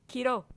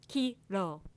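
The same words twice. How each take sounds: First: The word is said very fast. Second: The word is said at a slower pace.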